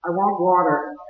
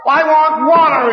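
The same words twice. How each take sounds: First: Said in the usual way. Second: Higher, louder, slow anguished plea; crying out for water. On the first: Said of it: "crying that same cry". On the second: Retold or imitated. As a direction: cry it out in torment. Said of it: "he cries".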